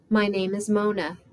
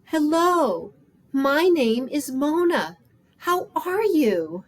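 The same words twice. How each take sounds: First: Said in the usual way. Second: Louder, higher, slow, drawn-out greeting; speaking up. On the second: Acted. Mona to a homeless woman who didn't hear, speaking up. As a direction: project each word slowly to someone who may not hear. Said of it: "so I spoke up".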